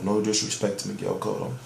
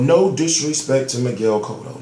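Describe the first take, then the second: First: Much lower and softer, under the breath; sarcastic quiet repeat of the disclaimer; muttered aside. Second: Said in the usual way. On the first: Real, not acted. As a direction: drop it to a throwaway mumble. Repeats disclaimer, second one muttered.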